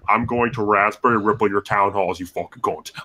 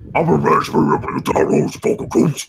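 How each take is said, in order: First: It is said in a normal speaking voice. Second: It is said in a strained, pained orc voice.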